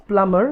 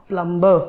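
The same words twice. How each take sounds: First: PLUMBER with a silent b; correct pronunciation. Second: Plumber with the b sounded; wrong pronunciation. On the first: Teacher giving learners the correct pronunciation of plumber, silent b. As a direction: say plumber as "plummer", b left silent. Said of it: "the correct pronunciation is". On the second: Teacher showing learners the wrong plumber, b sounded. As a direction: say plumber as "plum-ber", pronouncing the b. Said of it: "not plumber". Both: Shown as a demonstration.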